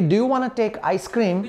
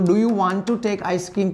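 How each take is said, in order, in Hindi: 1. 'Want to' को जल्दी से मिलाकर 'wanna' बोला जाता है। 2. 'Want to' को दो पूरे शब्दों की तरह बोला जाता है।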